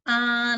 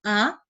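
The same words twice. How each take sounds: First: The pitch stays high and level. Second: The pitch rises upward. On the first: "nada satu" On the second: "nada kedua itu bisa kepalanya ikut-ikut naik"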